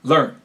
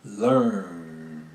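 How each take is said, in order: First: Learn cut short and punched; clipped, abrupt learn. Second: Learn stretched long and low; long held-out learn; drawn-out learn. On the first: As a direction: snap the word off short. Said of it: "I would clip stuff". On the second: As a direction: draw the word out slowly. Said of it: "See, I draw that out". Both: Shown as a demonstration.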